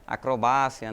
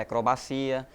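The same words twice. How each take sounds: First: Acrobácia said Spanish-style as a-cro-BA-cia; acrobácia with BA strong and -cia light; stress on BA. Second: Acrobacia said Portuguese-style as a-cro-ba-CI-a; stress on CI. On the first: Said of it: "têm a tonicidade diferente". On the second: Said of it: "diferente da língua portuguesa". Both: Shown as a demonstration.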